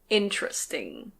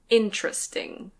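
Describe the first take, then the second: No difference in how they are said.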